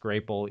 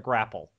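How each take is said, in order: First: The first syllable sounds like 'grape'. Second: The first syllable sounds like 'grap'. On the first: The speaker calls it right. "it's supposed to be pronounced" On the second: The speaker calls it wrong. "they call it a grapple"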